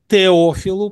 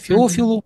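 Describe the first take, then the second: First: The name begins with a T sound. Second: The name begins with an F sound. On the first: "или мы бы сказали Теофилу" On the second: "если уже с греческого точно ударение ставить"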